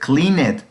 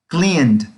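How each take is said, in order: First: The ending is an extra "ed" syllable. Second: The ending is a plain D sound. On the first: The speaker calls it wrong. "así se leería si lo pronuncio como está escrito, pero así no debe de sonar" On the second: The speaker calls it right. "una D al final"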